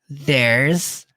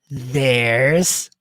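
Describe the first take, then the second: The two takes are said the same way.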